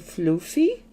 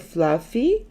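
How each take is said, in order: First: It is said with an American-style 'oo' vowel. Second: It is said with an Australian pronunciation. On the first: "Americans say floofy" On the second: "we say fluffy"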